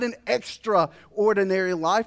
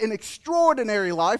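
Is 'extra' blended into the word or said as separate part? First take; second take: separate; blended. First: Extra and ordinary are said as separate parts. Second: The word is said as one blended unit. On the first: An even more ordinary life. The speaker calls it wrong. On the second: A remarkable life beyond the usual. The speaker calls it right. "I want"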